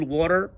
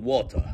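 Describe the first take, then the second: First: American-style "worer"; American accent. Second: British water, crisp t and no final r; low British-style "wo-tah"; British accent. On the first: Teacher showing how Americans say it, American accent. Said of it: "تنطقها زي الأمريكان". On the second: Teacher showing how British say it, British accent. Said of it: "تنطقها زي البريطانيين". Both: Shown as a demonstration.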